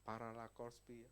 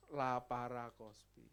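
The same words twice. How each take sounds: First: Paralakorspi said jumbled, syllables out of order as a wrong try; garbled word. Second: Laparoscopi said slowly and carefully as la-pa-ros-co-pi; corrected word. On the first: Preacher fumbling the name of the operation, with a garbled word. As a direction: stumble over Paralakorspi. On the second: Preacher correcting himself on the operation's name, slow and careful. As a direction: spell out Laparoscopi deliberately. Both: Shown as a demonstration. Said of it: "apa-apa itu?".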